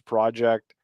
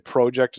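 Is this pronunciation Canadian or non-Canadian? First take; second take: non-Canadian; Canadian. First: It is said with a non-Canadian pronunciation. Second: It is said with a Canadian pronunciation. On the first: "as opposed to" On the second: "a lot of Canadians will say project"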